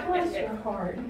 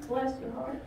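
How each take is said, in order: First: Pitying, falling. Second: Softer, rising. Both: Shown as a demonstration. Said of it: "Most of the time when I say".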